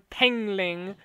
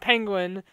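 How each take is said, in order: First: The word is pronounced with some distortion. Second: The word is pronounced normally and clearly. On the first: The speaker calls it wrong. "his pronunciation just gets worse and worse" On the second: The speaker calls it right. "It goes from penguin"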